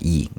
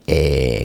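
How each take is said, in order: First: The vowel is a high 'ee' sound. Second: The vowel is a lengthened mid 'e' sound. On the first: This is how modern Greek reads it. The speaker calls it wrong. "현대 그 헬라어에서는 E 발음을 해요" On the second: This is the simple reading learners should use. The speaker calls it right. "좀 더 길게 에 그렇게 하시면 되는데"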